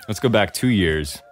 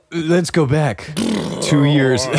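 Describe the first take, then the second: First: Said in the usual way. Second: Slow, eerie, drawn-out voice; unearthly voice. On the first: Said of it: "same line retaken plainly". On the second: Pretend. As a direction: intone it like a ghostly flashback. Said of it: "spooky dramatic rewind, then redone".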